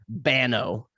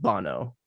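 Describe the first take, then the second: First: The name is said with an American accent. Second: The name is said with a Japanese pronunciation. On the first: "if you were to say it with an American accent" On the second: "in like Japanese, that's how they pronounce it"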